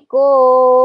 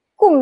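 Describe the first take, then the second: First: "kum" turned into a long, drawn-out "kooom"; overlong wrong "kom". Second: "kum" short with a U sound; short correct "kum". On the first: Teacher showing the Malay mistake, long "kooom". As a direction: stretch "kum" out slowly with an O. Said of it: "dia punya panjang". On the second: Teacher correcting learners, plain short "kum". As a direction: keep "kum" brief, not stretched. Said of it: "Padahal kum sahaja". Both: Shown as a demonstration.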